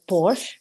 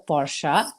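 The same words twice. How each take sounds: First: The name is said the American way. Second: The name is said the German way. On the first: This is the common local way. "in America it's been uh, uh, pronounced as Porsche, which is also fine" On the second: This is the original way. "the Germans call it the Porsche"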